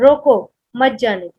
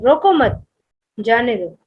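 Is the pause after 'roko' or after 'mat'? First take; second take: after roko; after mat. First: There is a pause right after roko. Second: There is a pause right after mat.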